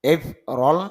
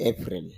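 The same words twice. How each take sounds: First: April as এফ রল, stress up front; English-style এফ রল, "eip-rol"; English pronunciation. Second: এপ্রিল as Bangla "e-pril"; Bangla-style এপ্রিল, ending in "ril"; Bangla pronunciation. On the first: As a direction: say এফ রল with "rol" in place of "ril". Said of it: "ইংরেজি সাউন্ডটা হলো". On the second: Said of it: "Bangla যদি আমরা ব্যবহার করি". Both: Shown as a demonstration.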